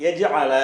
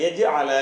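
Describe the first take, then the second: The two takes are said the same way.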